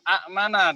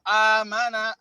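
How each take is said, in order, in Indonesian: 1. Hamzah menutup suku kata pertama. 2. Vokal pertama panjang, tanpa hamzah. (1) "aslinya adalah a'mana" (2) "Kalimat ini menjadi amangtum atau amana"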